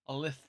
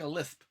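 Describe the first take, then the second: First: The s sound is lisped with exaggeration. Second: The s sound is spoken plainly.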